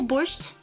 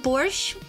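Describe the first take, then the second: First: The word ends with a final T sound. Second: The word ends without a final T sound. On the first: The speaker calls it wrong. "Some people say borscht" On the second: The speaker calls it right. "I feel like T is weird. I just say borscht"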